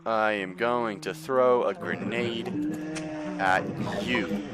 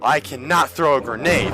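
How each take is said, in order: First: Slow, measured words; deliberate announcement. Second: Higher, louder exclamation; frustrated outburst. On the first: Gamer to game enemy, slow deliberate threat. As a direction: spell out the threat slowly, pausing before the end. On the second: Gamer failing to throw grenade, frustrated higher cry. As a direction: raise it into an exasperated cry. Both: Real, not acted.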